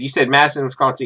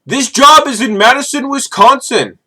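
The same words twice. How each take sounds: First: Said in the usual way. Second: Put-on high, louder Indian-accented "Madison, Wisconsin"; hammed-up Indian accent, pitched high; mock Indian accent. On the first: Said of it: "I said". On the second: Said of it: "from Indian recruiters".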